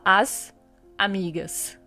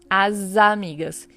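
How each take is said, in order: First: The s is kept apart from the following vowel. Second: The s links to the vowel as a z. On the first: The speaker calls it wrong. "Você não fala as amigas" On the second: The speaker calls it right. "Você faz uma ligação entre o S e o A"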